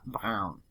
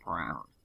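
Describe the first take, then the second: First: The R is made in the throat. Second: The R is an English-style R. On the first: The speaker calls it right. "It's just got kind of a throaty R" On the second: The speaker calls it wrong. "instead of brown"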